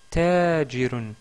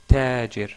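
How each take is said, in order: First: The word ends with the full -un ending. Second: The word stops short without the -un ending.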